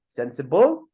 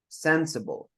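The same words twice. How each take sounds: First: The stress is on the last syllable. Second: The stress is on the first syllable. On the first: The speaker calls it wrong. "If you put at the end, sensible" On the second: The speaker calls it right. "That's where the stress is"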